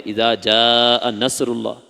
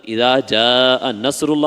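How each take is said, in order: First: Slow reading with نصر on a plain s; wrong reading. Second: Slow with نصر said with a thin s; wrong reading. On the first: Teacher imitating a student's mistaken recitation. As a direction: read نصر with a thin سین. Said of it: "اور اسی کو آپ نے پڑھ دیا". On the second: Teacher repeating the wrong recitation to show meaning changes. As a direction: say نصر with س not ص. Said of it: "تو ... پڑھ دیا". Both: Shown as a demonstration.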